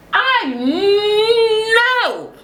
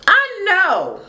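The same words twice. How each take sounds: First: Very high "I", then a long stretched "know"; drawn-out exclamation. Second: High "know" falling at the end; high-pitched exclamation. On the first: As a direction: break "I know" in two, squealed and drawn out. Repeats it broken and stretched. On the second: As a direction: squeal "I know" in one go. Mock exclamation, then repeated stretched. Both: Real, not acted.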